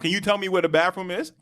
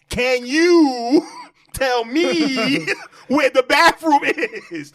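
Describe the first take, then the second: First: The question is said at normal volume. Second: The question is said much louder.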